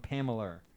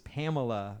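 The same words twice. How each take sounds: First: It is said with a regional pronunciation. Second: It is said with a standard pronunciation. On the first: "become Pamela" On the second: "how does Pamela become Pamela?"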